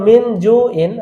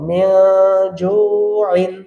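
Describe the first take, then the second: First: The n is pronounced clearly. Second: The n is nasalized and hidden. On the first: "ছিল" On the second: "আমরা বলবো"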